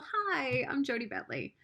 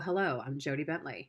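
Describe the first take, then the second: First: It sounds warm and caring, like a mom. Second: It sounds powerful and businesslike, like a CEO.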